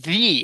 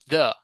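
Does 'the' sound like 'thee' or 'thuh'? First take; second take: thee; thuh. First: It is said as 'thee', with a long vowel. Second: It is said as 'thuh', with a short vowel. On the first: This form is used before a vowel sound. "here I'm saying the" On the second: This form is used before a consonant sound. "and not the"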